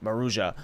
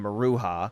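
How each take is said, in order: First: The J is pronounced as a J sound. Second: The J is not pronounced as a J sound. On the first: The speaker calls it right. "you actually pronounce the J in there" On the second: The speaker calls it wrong. "For the longest, I was calling them Maruja"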